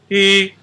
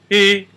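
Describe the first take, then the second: The two takes are said the same way.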